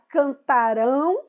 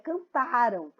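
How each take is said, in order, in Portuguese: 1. A sílaba tônica é a última. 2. A sílaba tônica é a do meio. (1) "Todos é a última, ... a sílaba rão" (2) "a sílaba mais forte aqui em cantaram é o tá"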